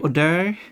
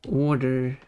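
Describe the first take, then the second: First: It is said as 'odeur'. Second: It is said as the ordinary 'order'. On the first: It rhymes with canter. "you don't say canter and odeur. If you do, those words rhyme" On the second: It does not rhyme with counter. "order rhymes with border"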